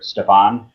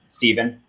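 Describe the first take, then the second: First: The name is said with an f sound. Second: The name is said with a v sound. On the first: The speaker calls it wrong. "not Stefan" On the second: The speaker calls it right. "Stephen, not Stefan"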